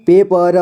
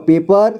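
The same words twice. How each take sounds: First: पेपर split as पे, प, र; syllable by syllable. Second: Said in the usual way. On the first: Shown as a demonstration. Teacher showing learners पेपर, sounded out in parts. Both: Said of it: "इसे पढ़ेंगे".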